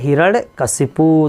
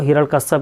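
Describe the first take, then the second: First: The name ends in the sounds 'kashipu'. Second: The name ends in the sounds 'kashyap'. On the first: The speaker calls it right. "सही word है" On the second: The speaker calls it wrong. "हिरण्यकश्यप वो बोलते हैं"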